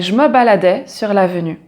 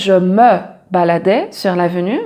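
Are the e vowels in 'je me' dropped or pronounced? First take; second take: dropped; pronounced. First: The e vowels are dropped and run together. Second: Every e vowel is fully pronounced. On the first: The speaker calls it right. "on ne prononce pas les « e »" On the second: The speaker calls it wrong. "on ne va pas dire"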